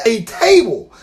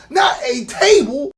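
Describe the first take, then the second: First: "table" said as a plain table word, falling; first "table" loud and falling; stress on table. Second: "not" shouted, rising, slow; "not a table" yelled in disbelief; stress on NOT. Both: Retold or imitated.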